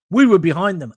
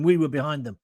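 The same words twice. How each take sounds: First: "We were behind them" said louder, with stress on "We" and a falling end; rousing proud "We"; proud emphasis. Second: Said in the usual way. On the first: Real, not acted. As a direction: proclaim it with national pride.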